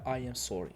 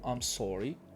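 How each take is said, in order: First: 'I am' is said as two full words. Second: 'I am' is contracted into one syllable. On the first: The speaker calls it wrong. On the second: The speaker calls it right.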